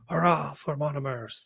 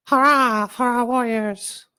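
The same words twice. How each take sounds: First: High, somewhat louder hurrah; raised cheer. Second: Very high, much louder hurrah; shouted cheer. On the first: Gumpel altering her cheer to rally the Monomers, calling out. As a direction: call it out to rally the crowd. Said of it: "Gumpel altered her words to". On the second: Gumpel cheering the warriors from hidden in the crowd, shouting. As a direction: yell it out over the crowd. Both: Acted.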